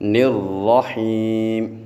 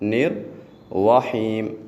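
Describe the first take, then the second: First: No 'w' sound follows the r, lips unrounded. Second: A 'w' sound follows the r, lips rounded. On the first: The speaker calls it right. "बिल्कुल इसको सीधा अदा करना है" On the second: The speaker calls it wrong. "होंठों को गोल करेंगे तो बेटे वाव की आवाज़ आ जाएगी"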